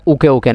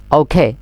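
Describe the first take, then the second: First: ওকে with plain k and short ending, "uke"; mistaken OKAY. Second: ওকে with aspirated k and full "ey"; corrected OKAY. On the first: Teacher showing students the mistake, ওকে as short "uke". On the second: Teacher modelling for students, ওকে as "ou-khey". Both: Shown as a demonstration. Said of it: "ওকে ন হইম".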